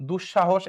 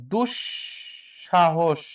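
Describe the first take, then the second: First: Said in the usual way. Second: দুঃসাহস very slow, broken after দুঃ; syllable-by-syllable reading. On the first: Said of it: "এখানে হসন্ত দিলে এটা ঠিক আছে". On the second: Shown as a demonstration. Teacher reading a quiz option to students, slow split syllables. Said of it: "কোনটি শুদ্ধ উচ্চারণ".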